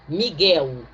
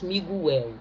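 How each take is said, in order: First: The u after the g is silent. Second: The u after the g is pronounced. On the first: The speaker calls it right. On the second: The speaker calls it wrong.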